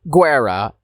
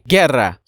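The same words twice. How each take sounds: First: The name is said the Italian way. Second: The name is said the Hispanic way.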